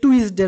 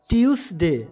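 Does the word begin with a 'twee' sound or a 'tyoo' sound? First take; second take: twee; tyoo. First: The word begins with a 'twee' sound. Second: The word begins with a 'tyoo' sound. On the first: The speaker calls it wrong. "এটির উচ্চারণ কিন্তু টুইসডে নয়" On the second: The speaker calls it right. "উচ্চারণ হচ্ছে এই টিউসডে"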